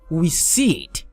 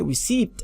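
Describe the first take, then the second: First: No P sound is heard before the final T. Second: A P sound is pronounced before the final T. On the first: The speaker calls it right. "I pronounce it as E. I say receipt" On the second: The speaker calls it wrong. "I don't say receipt because the letter P is silent"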